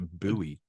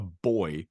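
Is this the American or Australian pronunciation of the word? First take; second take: American; Australian. First: It is said with the American pronunciation. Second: It is said with the Australian pronunciation. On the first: This is how the listeners' country says it. "you would call it a buoy" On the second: This is how the speaker's country says it. "but we call it a buoy, which is stupid"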